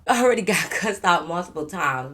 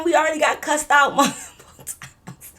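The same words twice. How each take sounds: First: Said in the usual way. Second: High, laughing through the words; higher exasperated laugh-talk. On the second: Real, not acted. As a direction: laugh out the complaint.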